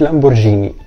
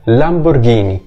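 First: The r is a soft English-like sound. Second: The r is a tapped Arabic-like sound. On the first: The speaker calls it wrong. "وهي مش لامبورجيني" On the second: The speaker calls it right. "حرف الار فيها ما بيتنطقش ار، بيتنطق زي حرف الر"

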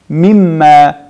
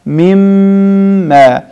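First: The nasal m sound is cut short. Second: The nasal m sound is held long. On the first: The speaker calls it wrong. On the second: The speaker calls it right.

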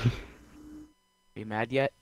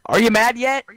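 First: The question is said at a normal volume. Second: The question is screamed very loudly. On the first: The speaker calls it wrong. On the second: The speaker calls it right.

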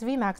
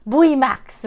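First: The word begins with a V sound. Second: The word begins with a B sound.

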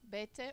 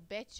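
First: The name is said the South African way. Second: The name is said the local Brazilian way. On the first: This is what colleagues abroad have always called her. "In South Africa, she's always been called Bete" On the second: This is how people at home say her name. "I learned now how you pronounce it"

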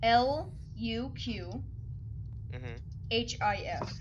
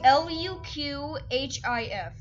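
First: It is said slowly. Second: It is said at normal speed.

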